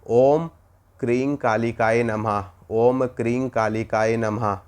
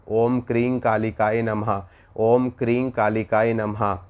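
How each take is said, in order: No difference in how they are said.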